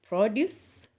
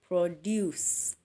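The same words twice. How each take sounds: First: The stress is on the first syllable. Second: The stress is on the second syllable. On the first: It is used as a noun. "you'll emphasize on pro" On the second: It is used as a verb. "So you shall stress deuce"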